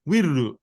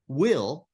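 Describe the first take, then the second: First: It is said as Japanese-style 'wiru' with vowels. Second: It is said as the English 'will' sound.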